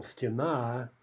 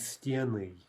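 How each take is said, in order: First: Стена with stress on the final а; stress on last syllable. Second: Стены with stress on the е; stress on first syllable. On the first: Teacher showing the singular, стена stressed on the ending. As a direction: land on the end of стена. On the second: Teacher showing stress jumping back, стены stressed up front. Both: Shown as a demonstration. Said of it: "Stress jumps back".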